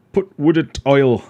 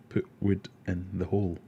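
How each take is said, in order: First: Loud, slow, broad Sheffield put wood in oil; Sheffield saying. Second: Said in the usual way. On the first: Retold or imitated. Streamer imitating Sheffield coworkers, loud slow Sheffield accent. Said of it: "they all have weird sayings like". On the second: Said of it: "means shut the door".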